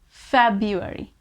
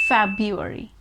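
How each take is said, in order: First: The R after the B is silent. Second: The same.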